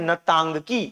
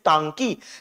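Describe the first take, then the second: First: The word begins with an audible N sound. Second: The word begins without any N sound. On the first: "pronunciation इसका है नतांगकी" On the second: "जहां एन silent है तो तांकी"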